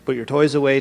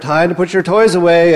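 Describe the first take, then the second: First: It is said at a normal, calm volume. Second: It is said louder, with a raised voice.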